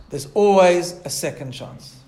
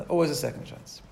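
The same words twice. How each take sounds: First: Slow, weighty stress on "always"; emphatic. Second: Quiet, lower repeat of "Always"; soft echo. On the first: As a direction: lean hard on "always", falling. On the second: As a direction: let "Always" fall away softly. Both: Shown as a demonstration.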